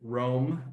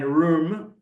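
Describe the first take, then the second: First: The name is said in an American way. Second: The name is said in a non-American way.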